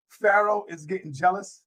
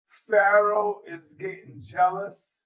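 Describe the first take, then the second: First: Said in the usual way. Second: PHARAOH drawn out, slow and deliberate; slow emphatic repeat. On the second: Real, not acted. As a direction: stretch out "Pharaoh is getting jealous" for effect.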